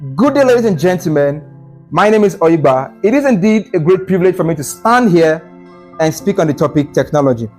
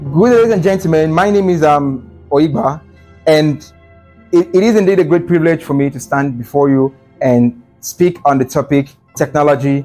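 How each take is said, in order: First: It is said confidently and smoothly, without fillers. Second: It is said hesitantly, with fillers and restarts.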